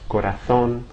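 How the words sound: The z is pronounced like a th. "as if I were in Spain"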